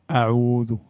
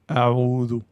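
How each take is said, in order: The two takes are said the same way.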